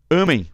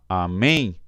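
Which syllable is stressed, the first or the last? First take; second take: first; last. First: The stress is on the first syllable. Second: The stress is on the last syllable. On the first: "mudar essa pronúncia, ó, de amém" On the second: "para amém"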